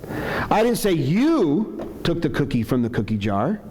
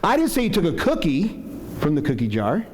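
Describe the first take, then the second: First: The stress falls on the word you. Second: The stress falls on the word cookie. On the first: Someone else may have taken it. "I'm saying maybe somebody else took it" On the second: Something other than a cookie was taken. "Accusing you of taking candy or something else"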